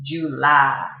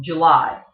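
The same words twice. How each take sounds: First: Virginia drawl. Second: Said in the usual way. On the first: Shown as a demonstration. Teacher shows how Virginians draw out July. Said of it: "They will kind of draw out into". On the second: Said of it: "one of my favorite words is".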